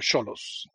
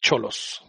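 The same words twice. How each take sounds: First: The name begins with an s sound. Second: The name begins with a ch sound. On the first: The speaker calls it right. "technically Cholos, is it not? Like Sochi or Xochimilco" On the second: The speaker calls it wrong. "not Cholos"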